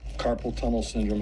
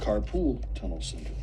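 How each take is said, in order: First: The first word sounds like 'carpal'. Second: The first word sounds like 'carpool'. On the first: The speaker calls it right. "is not" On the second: The speaker calls it wrong. "is not"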